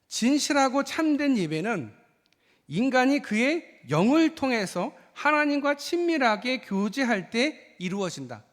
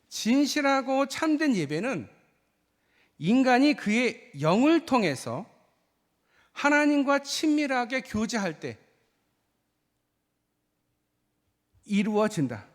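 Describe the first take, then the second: First: The sentence is spoken at a faster pace. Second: The sentence is spoken at a slower pace. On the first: "제가 원래 좀 말이 좀 빠르잖아요" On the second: "좀 더 천천히 말씀을 드릴게요"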